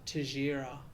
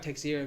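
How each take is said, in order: First: The name is said the Brazilian Portuguese way. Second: The name is read as its spelling suggests. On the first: "the Brazilian pronunciation" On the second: "it looks like Texira"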